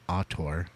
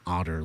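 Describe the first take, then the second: First: The word sounds like the start of auditor. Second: The word sounds like the animal otter. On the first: The speaker calls it right. "like an auditor" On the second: The speaker calls it wrong. "Not otter like"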